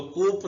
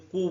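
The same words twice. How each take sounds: First: कूप with the final p sounded; wrong pronunciation. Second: कू as koo, no p at the end; correct pronunciation. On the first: Teacher to students, the wrong कूप with p. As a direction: say कूप ending on a clear p, the wrong way. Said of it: "इसको कूप नहीं पढ़ेंगे". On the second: Teacher to students, correct कू without p. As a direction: say कू with the p silent. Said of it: "कू पढ़ेंगे". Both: Shown as a demonstration.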